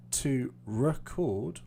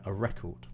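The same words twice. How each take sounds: First: To record said re-CORD, slow and stretched; stress on second syllable. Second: A record said REC-ord, falling at the end; stress on first syllable. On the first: Teacher repeating the verb for students, stressing the end of record. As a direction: lengthen and lift the last syllable of record. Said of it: "I put more stress here". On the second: Teacher repeating the noun for students, stressing the start of record. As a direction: hit the front of record, reduce the second syllable. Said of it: "this is where the stress is". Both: Shown as a demonstration.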